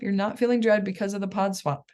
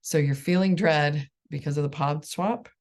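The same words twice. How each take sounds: First: "not" pushed higher, corrective tone; correcting stress on not. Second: Said in the usual way. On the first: Shown as a demonstration. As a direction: stress "not" to fix the mistake. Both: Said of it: "You skipped a step".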